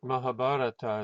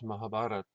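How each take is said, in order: First: The word ends with a final vowel sound. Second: The word ends without a final vowel sound. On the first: The speaker calls it wrong. "it's not Mahabharata" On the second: The speaker calls it right. "it's Mahabharat"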